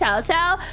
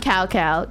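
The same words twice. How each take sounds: First: The name is pronounced the Chinese way. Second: The name is pronounced the anglicized way. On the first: The speaker calls it right. "It's Cao Cao" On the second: The speaker calls it wrong. "I'm gonna call him Cao Cao"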